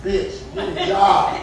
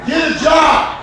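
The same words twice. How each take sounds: First: First, slower take before the shout; slow laughing scold. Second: Higher, louder, laughing yell; shouting the punchline while laughing. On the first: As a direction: drag it out with a laugh. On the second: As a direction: bark it again over the laughter. Repeats the line louder. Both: Acted.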